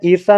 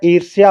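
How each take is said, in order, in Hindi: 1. यह शब्द sha पर खत्म होता है, य-ध्वनि के बिना। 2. यह शब्द shya पर खत्म होता है, य-ध्वनि के साथ। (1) "ईर्षा नहीं होता है" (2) "ईर्ष्या होता है"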